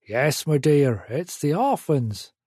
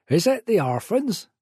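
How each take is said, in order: First: Country man's answer, falling at the end; man calling back. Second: High, rising question from a country woman; booming woman indoors. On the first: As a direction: call back reassuringly in a Suffolk burr. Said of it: "the man called back". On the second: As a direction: call out eagerly from indoors, pitch up. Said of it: "boomed a woman's voice". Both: A narrator's reading.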